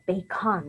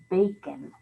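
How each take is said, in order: First: The second syllable has a full, clear vowel. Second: The second syllable has a reduced schwa vowel. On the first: The speaker calls it wrong. "That's not how we say it" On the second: The speaker calls it right. "We say it with the schwa sound"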